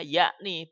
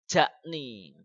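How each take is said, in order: First: The word begins with a Y sound. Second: The word begins with a J sound. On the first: The speaker calls it right. "bacanya yakni" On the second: The speaker calls it wrong. "bukan jakni"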